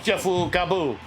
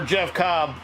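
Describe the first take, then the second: First: The name is said with Japanese-style added vowels. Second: The name is said with plain English sounds. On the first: "you can say Jeffu Kabu" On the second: "there's no direct translation for Jeff Cobb"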